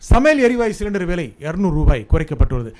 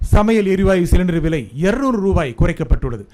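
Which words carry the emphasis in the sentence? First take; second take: சமையல் எரிவாயு சிலிண்டர்; இருநூறு ரூபாய். First: The emphasis falls on the cooking gas cylinder. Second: The emphasis falls on the amount, two hundred rupees. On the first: The point is which item got cheaper. "எதையா குறைச்சான்? சமையல் எரிவாயு cylinder" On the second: The point is how much the price was cut. "எவ்வளவு குறைச்சாங்க? இருநூறு ரூபாய்"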